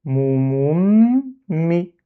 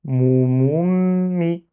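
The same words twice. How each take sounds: First: "Mou, moum, mi" with "moum" held, then a separate "mi"; syllables split. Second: "mou, moum, mi" in one continuous drawn-out flow; syllables joined. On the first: Teacher showing each syllable, "Mou, moum, mi" split and drawn out. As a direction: hold the m of "moum", break briefly before "mi". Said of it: "pour bloquer le mim". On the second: Teacher reading with the bar removed, "mou, moum, mi" linked. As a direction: hum the m of "moum" straight into "mi". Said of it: "j'enlève cette barre et je lis". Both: Shown as a demonstration.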